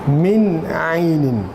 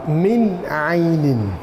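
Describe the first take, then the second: The two takes are said the same way.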